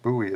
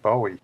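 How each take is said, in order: First: The name is said the American way. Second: The name is said the British way. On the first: "an American version of his pronunciation" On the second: "the British pronunciation"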